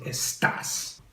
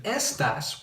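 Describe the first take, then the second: First: "estás" stressed on the last syllable, es-TAS. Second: "estas" stressed on the first syllable, ES-tas. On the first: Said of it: "we want it to say estás". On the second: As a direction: hit the ES of "estas", leaving TAS light. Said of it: "So instead of estas". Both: Shown as a demonstration.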